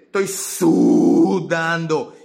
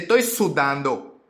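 First: The first syllable is drawn out long. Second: The first syllable is said at normal length.

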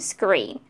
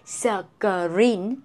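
First: The opening consonants run together quickly. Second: The opening consonants are broken apart. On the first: The speaker calls it right. "No, screen, screen, screen. Quickly" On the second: The speaker calls it wrong. "You cannot separate like screen"

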